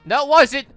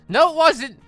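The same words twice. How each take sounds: The two takes are said the same way.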